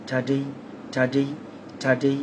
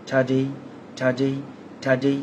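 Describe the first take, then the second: Both takes have the same delivery.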